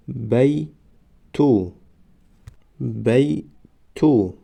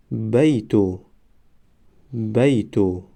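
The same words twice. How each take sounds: First: بیتو stretched very slowly, syllable by syllable; drawn-out demo. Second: Said in the usual way. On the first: Shown as a demonstration. Teacher modelling the word for students, very slow. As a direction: draw out بیتو slowly for the class. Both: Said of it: "ما باید همان حرف را فقط آوازش را تلفظ کنیم".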